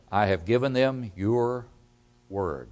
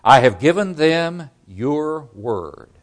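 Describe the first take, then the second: First: "word" set apart by a pause, dropped low and soft; hushed, weighted landing on "word"; stress on word. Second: Slow, raised quote with "your word" spaced out; emphatic, slow delivery of "your word"; stress on your word. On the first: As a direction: pause after "your", then let "word" fall with weight. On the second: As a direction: start strong, then set "your" and "word" apart deliberately. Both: Shown as a demonstration. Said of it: "the emphasis on the word".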